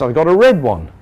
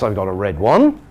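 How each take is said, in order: First: The voice falls at the end. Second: The voice rises at the end. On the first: The speaker has finished the sentence. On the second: The speaker is going to say more. "that voice going up at this point says, I am not finished"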